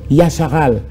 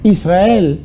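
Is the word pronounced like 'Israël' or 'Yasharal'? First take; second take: Yasharal; Israël. First: It is pronounced with ya-sha-ral sounds. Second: It is pronounced with is-ra-el sounds. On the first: The speaker calls it right. "tiré de, de l'hébreu" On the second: The speaker calls it wrong. "un mot mal prononcé"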